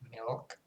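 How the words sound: It is said with a dark L sound. "the dark L, which is like milk"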